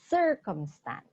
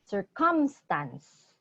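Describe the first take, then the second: First: The stress is on the first syllable. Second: The stress is on a later syllable. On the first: The speaker calls it right. "the emphasis is on the first syllable" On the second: The speaker calls it wrong. "So it's not circumstance"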